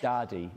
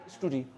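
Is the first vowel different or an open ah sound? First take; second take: open ah; different. First: The first vowel is an open ah sound. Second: The first vowel is not an open ah. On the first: The speaker calls it right. "It's that uh, open sound" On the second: The speaker calls it wrong. "just be careful, [name], with studi"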